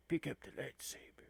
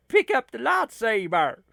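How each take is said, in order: First: Jack Palance impression. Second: Said in the usual way. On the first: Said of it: "not very good at impressions like that". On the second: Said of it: "you mean he would say something like".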